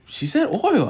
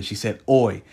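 First: "oil" pitched up with its final L. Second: "oi" lower, with the final L dropped; oil without L. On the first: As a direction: say "oil" in full, ending on L. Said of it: "she knew it as oil". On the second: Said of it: "my mom has been saying oi". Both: Retold or imitated.

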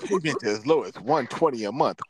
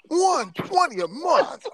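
First: Mock car-ad read, lightly pitched up; commercial announcer. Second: Very high, loud, drawn-out ad shout; hyped commercial announcer. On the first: Imitating car commercials for friends, announcer read. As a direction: read it like a finance offer. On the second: Pretend. Repeating the price for friends, over-the-top announcer shout. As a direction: blast the price like a car-ad pitchman. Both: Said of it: "how some of the commercials say".

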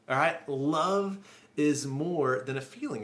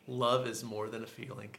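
First: Louder and slower, leaning on "love"; emphatic restatement. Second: Said in the usual way. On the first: Shown as a demonstration. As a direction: hammer home "love is more than a feeling".

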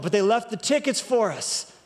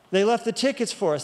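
First: Tickets stressed, falling after it. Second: Left stressed, falling after it. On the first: Pastor telling the congregation about the free tickets, stress on tickets. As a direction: lean on the word tickets. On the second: Pastor repeating the line to stress the tickets being left, stress on left. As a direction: lean on the word left. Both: Shown as a demonstration.

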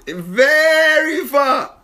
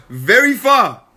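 First: "Very" stretched long and high; drawn-out emphasis. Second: Said in the usual way. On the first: Real, not acted. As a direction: draw out "Very" as far as it goes.

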